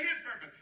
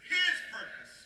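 First: Said in the usual way. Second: Higher and louder, breathy push on His; louder call. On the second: Shown as a demonstration. Pastor leading the louder response, pushed and loud. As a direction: give the church the louder answer. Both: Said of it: "say it louder".

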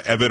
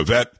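First: "Evette" with the stress up front, EV-it; first-syllable stress. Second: "Evette" with the stress at the end, uh-VET; second-syllable stress. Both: Shown as a demonstration. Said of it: "learn how to pronounce her name".

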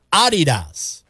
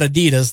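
First: Adidas with the weight on AD: AD-i-das; stress on first syllable. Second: Adidas with the weight on DI: a-DI-das, the American way; stress on second syllable. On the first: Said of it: "with a slight emphasis on the first syllable". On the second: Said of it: "stressing the second syllable". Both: Shown as a demonstration.

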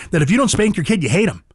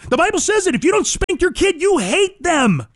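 First: Said in the usual way. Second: High-pitched, insistent proclamation; impassioned repeat at a much higher pitch; emphatic preaching. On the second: Real, not acted. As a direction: hammer it home, stretching "you hate them". Emphatic repeat of Bible saying.

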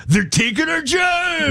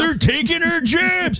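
First: High, drawn-out mock outrage; mock protest cry. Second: Very high, slow, hammed-up complaint; mock protest cry. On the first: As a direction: wail it like a hammed-up protester. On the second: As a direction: cry out in pretend outrage.

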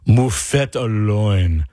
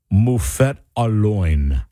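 First: "Moufette au loin" slow, with a French nasal "loin"; copying the pronouncer. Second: "moufette à loin" in slow layman French, loin like English "loin". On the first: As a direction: echo "Moufette au loin" after the French recording, slowly. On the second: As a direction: sound out "moufette à loin" slowly, Anglicized. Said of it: "I'm not saying that I'm about to pronounce this right". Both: Shown as a demonstration.

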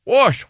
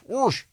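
First: Wash said high as "wahsh"; "wash" with an open vowel, pitched up; standard pronunciation. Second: Wash said as "warsh"; "wash" with an intrusive R, "warsh"; regional pronunciation. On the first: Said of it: "You say wash". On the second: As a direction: put an R into "wash". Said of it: "I say wash". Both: Shown as a demonstration.

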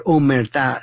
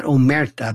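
First: Omerta with the last syllable stressed, o-mer-TA; stress on final syllable. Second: Omerta stressed on the middle, o-MER-ta; stress on middle syllable. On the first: Host correcting the word, omerta said o-mer-TA. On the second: Host showing the mistaken way, omerta said o-MER-ta. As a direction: put the weight on MER in omerta. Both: Shown as a demonstration. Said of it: "not omerta, but omerta".

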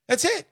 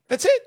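First: Said in the usual way. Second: High, loud, punchy "That's it"; a high, loud exclamation with "it" rising; emphatic. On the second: Real, not acted. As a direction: hammer it home with a high punch.

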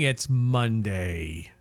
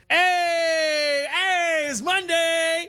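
First: Low, slow, gloomy doom voice. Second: High, bright upbeat take; cheerful. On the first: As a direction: drag it out like doomsday. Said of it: "Why'd you say that in a doom voice?". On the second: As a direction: sing it out like good news. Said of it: "All right, let's start again". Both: Acted.

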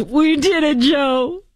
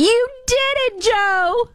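First: High, cheery phone-call voice; imitating Kamala Harris. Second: Very high, slow, gushing cheer; imitating Jill Biden. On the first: Host mimicking Kamala congratulating Joe, high and cheery. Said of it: "very different from Kamala Harris's". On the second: Host mimicking Jill praising Joe after debate, high squeal. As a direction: squeal it like a proud wife. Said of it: "couldn't say enough good things about Joe".

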